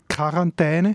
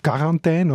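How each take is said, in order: First: It is pronounced the German way, as in northeastern Switzerland. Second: It is pronounced the French way, as in western Switzerland.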